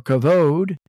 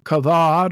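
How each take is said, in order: First: "kavod" with a long OH in the last syllable; alternate pronunciation. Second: "kavod" with an open AH in the last syllable; alternate pronunciation. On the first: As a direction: say "kavod" as kuh-VOHD. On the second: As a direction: say "kavod" as kuh-VAHD. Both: Shown as a demonstration. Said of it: "or some say".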